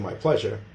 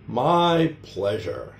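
First: Only the word 'pleasure' is stressed. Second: Both 'my' and 'pleasure' are stressed. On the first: "instead of just saying my pleasure" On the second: "They'll stress both the word my and the word pleasure"

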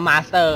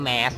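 First: The word is pronounced in a Thai style. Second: The word is pronounced in a Western style. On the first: "ก็จะอ่านว่า" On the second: "ถ้าฝั่งฝรั่งพูดเขาจะอ่านว่า"

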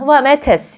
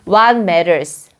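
First: The t in matters is a crisp t. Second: The t in matters is a soft flap. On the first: "영국이나 호주로 가실 분들은 ... 이렇게 하시면 되지만" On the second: "좀 굴려는 게 좀 더 발음하기가 쉬우신 분들은"

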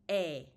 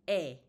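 No difference in how they are said.

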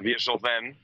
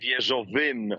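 First: The ending is pronounced with the vowel 'e'. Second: The ending is pronounced with the vowel 'y'. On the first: The speaker calls it right. "a wieżowem" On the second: The speaker calls it wrong. "nie wieżowym"

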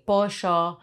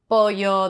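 First: It is said in an Argentine accent. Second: It is said in a general Spanish accent. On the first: "they say pollo. I'm able to like imitate that one because I'm from Uruguay" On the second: "instead of saying pollo"

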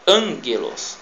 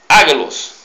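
First: An n sound comes before the g. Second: The g follows the vowel with no n sound. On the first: The speaker calls it right. "mas na verdade é ângelos" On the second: The speaker calls it wrong. "Você, um iniciante, vai ler ágelos"

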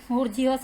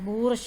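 First: It is said with three syllables, bour-zhee-os. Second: It is said with two syllables, boor-sha. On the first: The speaker calls it wrong. "നമ്മൾ അല്ലാതെ വായിക്കുകയാണ് ബൂർജിയോസ് എന്ന്" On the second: The speaker calls it right. "ബൂർഷ എന്നുള്ള correct spelling ഇതാണ്"

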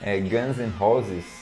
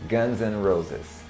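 First: It is said with Portuguese-style sounds. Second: It is said with English-style sounds. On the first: The speaker calls it wrong. "mas eu já vi por aí o nome da banda" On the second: The speaker calls it right. "mas a pronúncia é o nome da banda"

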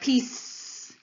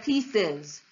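First: The word ends in a bare s sound. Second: The word ends in a vowel plus z. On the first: The speaker calls it wrong. "We can have s, which would sound like piece" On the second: The speaker calls it right. "which is how we actually say the plural of pieces"

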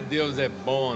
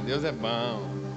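First: The phrase is said with a flat melody. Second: The phrase is said with a swinging melody. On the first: The speaker calls it wrong. "mas não é Deus é bom, não" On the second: The speaker calls it right. "Tem que dar uma balançadinha assim"

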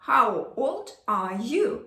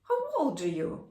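First: Each word is pronounced fully and separately. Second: The words are reduced and run together quickly. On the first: "що ми зазвичай говоримо" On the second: "Що я спитала?"

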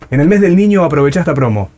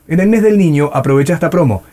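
No difference in how they are said.

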